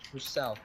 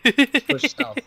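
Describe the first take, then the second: First: Said in the usual way. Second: Loud, high command shout; shouted order. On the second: Real, not acted. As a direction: yell the order to the squad. Repeated squad order, first loud.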